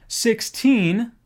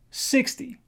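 First: Put-on "Sixteen" weighted on a long, rising "teen"; stress on second syllable. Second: "Sixty" punched on "six", light "ty"; stress on first syllable. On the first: Teacher contrasts similar numbers, "Sixteen" stressed on TEEN. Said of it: "second syllable". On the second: Teacher contrasts similar numbers, "Sixty" stressed on SIX. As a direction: hit "Six", let "ty" drop. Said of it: "first syllable". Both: Shown as a demonstration.

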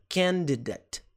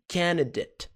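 First: Candidate with every sound: kan-di-det, the d clearly said; full pronunciation. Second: Candidate said quickly as kanidet, the middle d dropped; fast reduced. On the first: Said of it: "Candidate seria a pronúncia completa". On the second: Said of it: "Se você falar rápido". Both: Shown as a demonstration.

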